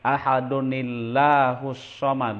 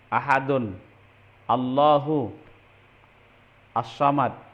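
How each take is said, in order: First: Ahadun runs into the next word with an added nun. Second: Ahadun ends, then Allahu starts as a separate word. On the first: "Tadinya ahadun dirubah menjadi ahadunil" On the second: "sebetulnya itu aslinya ahadun"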